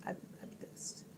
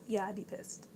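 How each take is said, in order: First: Breathy whispered repeat of the line. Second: Said in the usual way. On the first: Shown as a demonstration. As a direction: say it again as a hushed aside under the breath.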